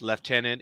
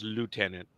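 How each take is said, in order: First: It is said with the British pronunciation. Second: It is said with the Canadian pronunciation. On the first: "in the United Kingdom, in uh, Great Britain, of course, it's lieutenant" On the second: "I don't think it's lieutenant in Aus- in uh, Canada. I think it's lieutenant"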